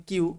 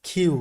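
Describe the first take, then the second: First: কিউ with an unaspirated k; the everyday way of saying কিউ; common Q pronunciation. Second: কিউ as "khyu", with a puff on the k; careful model of কিউ; correct Q pronunciation. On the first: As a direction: say কিউ as "kyu", without a puff. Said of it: "সবাই আমরা পড়ি কিউ". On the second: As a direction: say কিউ with an aspirated k. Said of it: "কিন্তু এটা আসলে কি?". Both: Shown as a demonstration.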